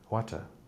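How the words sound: It is said in a British accent. "they will say a water, water"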